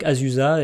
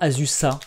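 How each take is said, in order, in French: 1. Le nom est prononcé à la française. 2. Le nom est prononcé de manière non française. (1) "Moi je le prononce à la française" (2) "Est-ce que c'est pas Azusa, peut-être?"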